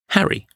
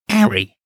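First: It is said in a neutral accent. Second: It is said in an East London accent.

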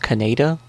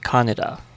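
First: The name is said with an English spelling-based pronunciation. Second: The name is said with a Japanese pronunciation. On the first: The speaker calls it wrong. "people would pronounce it how it looks" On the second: The speaker calls it right. "the Japanese pronunciation is supposed to be"

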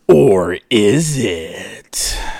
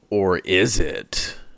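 First: The question is said in a creepy, suspenseful way. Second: The question is said plainly, with little suspense. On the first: "that sounded creepy" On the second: "That needs to sound a bit more questionable"

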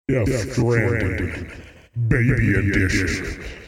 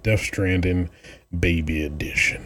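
First: It is said in a put-on announcer voice. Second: It is said in his normal speaking voice.

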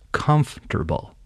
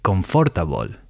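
First: The word is said with three syllables. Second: The word is said with four syllables. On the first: The speaker calls it right. "it's actually three syllables, not four, and the emphasis or stress should be on the first syllable" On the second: The speaker calls it wrong. "Most Spanish speakers will read that word and say confortable"

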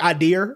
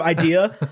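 First: The word ends with an added r sound. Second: The word ends without any r sound. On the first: This is how the imitated person says it. "he'd say like idea" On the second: This is the usual way to say it. "instead of idea"

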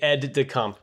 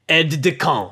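First: It is said plainly with little French flavor. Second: It is said with an exaggerated French accent. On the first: "It would just be aide-de-camp" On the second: "put a little French on it"

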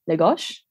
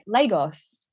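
First: The S sounds the Portuguese way. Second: The S sounds the Spanish way. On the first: "So like the S is different" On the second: "Like I would say it Lagos"

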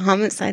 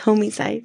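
First: The first syllable is a short 'hom'. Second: The first syllable sounds like 'homie'. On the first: It means the ordinary crime of killing someone. "Instead of homicide" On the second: It means killing your homie, your best friend. "it's homicide because they're your homies"

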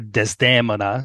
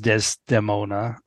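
First: The name has its Italian opera pronunciation. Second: The name has its common English pronunciation.

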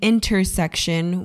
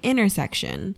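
First: The t sound is clearly pronounced. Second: The t sound is dropped. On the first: "instead of saying intersection" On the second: "Californians don't pronounce their T's"

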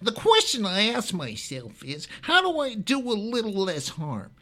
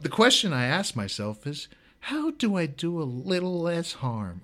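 First: It is said in a put-on mocking voice. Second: It is said in his normal voice.

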